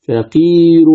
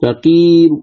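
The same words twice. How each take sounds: First: فقير ending in a full "un" nunation; فقير said with the nunation sounded out; فقير with the full final u and n; with tanween. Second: فقير with a faint, short u on the final r; فقير with the last vowel weakened to a third; فقير stopped with a whispered u; stop with rawm. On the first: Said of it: "بالتنوين أقول". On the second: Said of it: "تقف عليها بالروم فتقول". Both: Shown as a demonstration.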